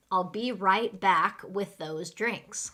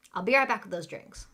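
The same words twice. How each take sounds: First: Slow, carefully spaced words; slow model sentence. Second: Quick, run-together server line; really fast. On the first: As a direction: say it slowly for learners. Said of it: "let's go through and say them really fast". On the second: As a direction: rattle it off like a busy waitress. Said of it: "say them really fast". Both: Shown as a demonstration.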